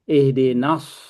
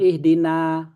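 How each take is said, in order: First: The word runs straight into an s sound. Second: The word stops before any following sound. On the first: The speaker calls it right. "langsung ke sadanya" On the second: The speaker calls it wrong. "bukan ihdina"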